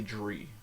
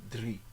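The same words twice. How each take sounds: First: Drie with an unrolled English R, like "jree"; English-style R. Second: Drie with a tapped tongue-tip R, "dree"; rolled R. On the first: Teacher shows what not to say, English R. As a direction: say drie wrongly, R not rolled. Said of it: "You don't say". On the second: Teacher corrects the wrong take, rolled R. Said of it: "and roll your R". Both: Shown as a demonstration.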